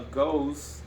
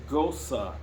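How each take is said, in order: First: The word ends without an extra 'uh' syllable. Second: The word ends with an extra 'uh' syllable. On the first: The speaker calls it wrong. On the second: The speaker calls it right.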